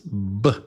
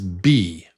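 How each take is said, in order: First: It is a short lip pop with no vowel. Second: It is said as 'bee' with a long vowel. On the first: This is the sound the letter makes. "but the sound is B. Short and quick" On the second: This is the letter's name. "The name of the letter is B"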